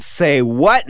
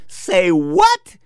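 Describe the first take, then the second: First: Contained question in the usual pitch; silent inner disbelief. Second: High-pitched incredulous question; shocked disbelief. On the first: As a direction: think it aloud, without the outburst. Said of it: "inside my head". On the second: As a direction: blurt it out in mock shock, pitch leaping up. Shock, set against the silent take. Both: Retold or imitated.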